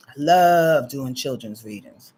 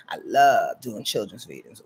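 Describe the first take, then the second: First: Lower, slower take. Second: Even lower take. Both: Shown as a demonstration.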